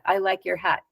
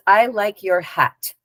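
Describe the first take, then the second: First: "I like your hat" flat, with no inflection; "I like your hat" as a level, matter-of-fact statement. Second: "I like your hat" said slowly, evenly, with little inflection; "I like your hat" in a slow, level tone; without any inflection. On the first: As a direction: say "I like your hat" evenly, no word standing out. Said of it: "just flat like that". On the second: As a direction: let "I like your hat" just come out, unhurried and uninflected. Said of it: "but without any inflection". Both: Shown as a demonstration.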